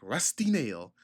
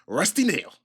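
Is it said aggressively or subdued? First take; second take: subdued; aggressively. First: It is said in a subdued, tempered way. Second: It is said aggressively and forcefully.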